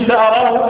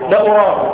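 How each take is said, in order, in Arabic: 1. يبدأ الفعل بالصوت 'a'. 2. يبدأ الفعل بالصوت 'u'. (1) "بفتح الهمزة من لا أراه" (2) "لا يجوز أن يقال لا أراه"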